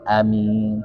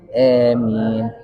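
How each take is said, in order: First: The first vowel is short, not held. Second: The first vowel is bent toward an e sound. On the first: "ada yang baca pendek" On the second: "yang kedua dibaca imalah"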